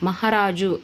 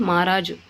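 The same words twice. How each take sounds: First: Said in the usual way. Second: మహారాజు as "maaraaju"; h dropped. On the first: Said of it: "అనే చోట హా". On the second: Shown as a demonstration. Teacher showing a dropped letter, మహారాజు without ha. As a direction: skip the ha in మహారాజు, one long first vowel. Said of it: "హా అనేది ఎగిరిపోయి".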